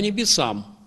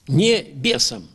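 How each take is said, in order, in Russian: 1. Слова сливаются в одно, без паузы. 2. Небольшая пауза отделяет первый слог от остального.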